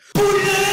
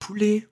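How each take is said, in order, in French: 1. Le mot est dit le plus fort. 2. Le mot est dit doucement. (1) "ça va de plus en plus fort" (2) "le pote il dit poulet"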